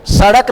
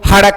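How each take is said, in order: First: The word begins with an s sound. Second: The word begins with an h sound. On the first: "सड़क नहीं बोलेंगे" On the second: "हड़क बोलेंगे"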